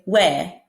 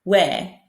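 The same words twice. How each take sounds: First: The final R is dropped, only the vowel. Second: The same.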